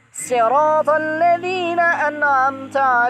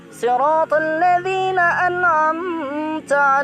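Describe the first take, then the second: First: Sirat begins with a plain, light s sound. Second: Sirat begins with an emphatic, heavy s sound. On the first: This is the variant reading with sin. "menjadi sira sin" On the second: This is the standard reading. "Yang awalnya"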